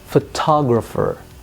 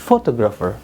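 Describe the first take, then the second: First: The stress is on the second syllable. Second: The stress is on a syllable other than the second. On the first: The speaker calls it right. "yang ditekan ternyata adalah pada syllable kedua" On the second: The speaker calls it wrong. "Jadi bukan photographer"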